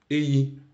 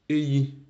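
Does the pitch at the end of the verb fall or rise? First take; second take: rise; rise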